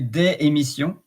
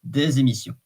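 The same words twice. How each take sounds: First: The s of des is not linked. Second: The s of des links as a z. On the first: "you can say des émissions, but" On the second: "the S becomes a kind of a Z"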